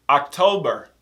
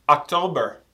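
No difference in how they are said.

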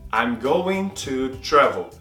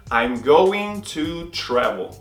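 The two takes are said the same way.

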